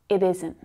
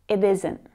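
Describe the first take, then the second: The two takes are said the same way.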